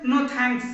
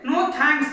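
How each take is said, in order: First: Said in the usual way. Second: "No thanks" said again, steadier and a bit firmer. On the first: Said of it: "तो उसे हम क्या बोलेंगे". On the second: Shown as a demonstration. Teacher repeating the phrase for students, firm. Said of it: "ठीक है".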